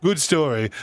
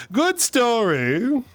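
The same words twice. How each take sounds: First: Said in the usual way. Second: "Good story." dragged out slowly, swooping high with a rising end; mock-proud drawn-out. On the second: Shown as a demonstration. Telling her friend the anecdote is over, slow high mock-proud "Good story.".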